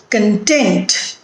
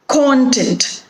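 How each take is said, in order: First: Content as con-TENT; stress on second syllable. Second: Content as CON-tent; stress on first syllable. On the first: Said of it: "shifts from the first syllable to the". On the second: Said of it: "the stress is on the first syllable". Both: Shown as a demonstration.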